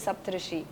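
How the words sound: The name is said as spelled, Hindi style. This is how you would read it from the spelling. "अगर आप पढ़ेंगे उस नाम को तो आप पढ़ेंगे"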